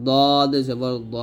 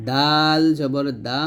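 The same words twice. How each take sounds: First: দদ জবর দ slow and thick; Arabic ḍad heavy; heavy dad. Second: দাল জবর দা slow and thin; Arabic dal light. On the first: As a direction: make দ heavy and full. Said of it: "দদটা মোটা করে". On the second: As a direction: keep দা light. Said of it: "দাল যখন উচ্চারণ করবেন". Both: Shown as a demonstration.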